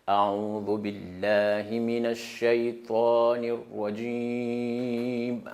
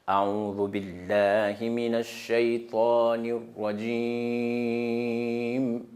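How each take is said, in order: Both takes have the same delivery.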